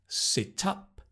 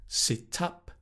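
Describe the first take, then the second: Both takes have the same delivery.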